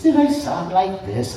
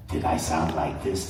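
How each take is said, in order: First: A higher trial voice, at the usual level; high voice try. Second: A lower, softer trial voice; low voice try. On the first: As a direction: test a higher version of the voice. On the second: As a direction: test a lower, quieter version of the voice. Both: Shown as a demonstration. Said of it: "I couldn't remember anything about".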